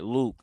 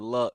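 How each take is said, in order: First: The name is said with a long vowel, like Luke. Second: The name is said with a short vowel, like luck. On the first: The speaker calls it right. "Let me make sure I'm saying it right" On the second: The speaker calls it wrong. "My bad. I said Luck"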